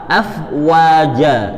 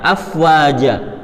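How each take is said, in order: First: The w is said with rounded, pushed-out lips. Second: It is said quickly with a plain w. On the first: The speaker calls it right. "wa-nya setelah huruf fa itu wa-nya monyong dulu" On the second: The speaker calls it wrong. "Ketika kita mengucapkan dengan cepat dan nggak memperhatikan makhrajnya"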